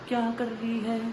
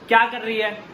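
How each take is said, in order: First: It is said quietly, at normal speaking level. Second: It is called out loudly, as if to another room.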